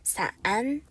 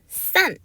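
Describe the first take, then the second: First: The syllable is said without the falling fourth tone. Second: The syllable is said with the falling fourth tone. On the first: It means umbrella. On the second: It means to separate.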